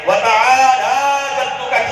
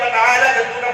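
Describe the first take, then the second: First: The vowel after the L is drawn out. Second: The vowel after the L is short. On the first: The speaker calls it right. "खींच करके कहना है" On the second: The speaker calls it wrong. "इसमें आमतौर पर लोग गलती करते"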